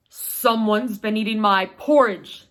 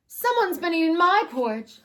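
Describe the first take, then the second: First: Lightly voiced big papa bear, louder; papa bear booms to his family, a touch gruff and loud. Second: Higher, louder wail of a mama bear. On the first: Papa bear to his family, a touch gruff and loud. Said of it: "said Papa Bear". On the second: Acted. Mama bear wails over her porridge, high and loud. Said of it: "wailed Mama Bear".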